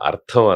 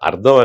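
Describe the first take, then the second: First: The consonant after 'r' has a breathy release. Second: The consonant after 'r' has no breathy release. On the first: The speaker calls it right. "అర్థం అనాలి" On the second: The speaker calls it wrong. "అర్థం అనేవాడు"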